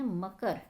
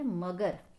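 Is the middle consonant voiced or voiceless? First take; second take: voiceless; voiced. First: The middle consonant is a voiceless k. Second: The middle consonant is a voiced g. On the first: "पहला व्यंजन क्या है, अघोष है" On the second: "क का क्या हो गया, यहाँ पर भी ग हो गया है"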